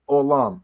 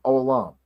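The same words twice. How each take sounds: The two takes are said the same way.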